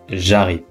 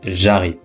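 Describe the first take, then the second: First: The vowel of je is dropped and contracted. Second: The same.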